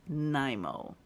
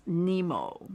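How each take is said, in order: First: "Nimo" said NIGH-moh; long-i pronunciation. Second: "Nemo" said NEE-moh; long-ee pronunciation. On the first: Crafter giving others' version, long-i pronunciation. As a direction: say "Nimo" to rhyme with rhino. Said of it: "Some people knows it as". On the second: Crafter naming the thread, long-ee pronunciation. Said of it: "Some people knows it as Nimo". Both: Shown as a demonstration.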